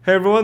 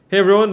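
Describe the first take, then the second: First: The low frequencies sound slightly clearer. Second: The low frequencies sound slightly less clear. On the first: The speaker calls it right. "the Blue Yeti actually sounds better than the Elgato Wave one, and especially in the low end" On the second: The speaker calls it wrong. "this is the Elgato Wave one"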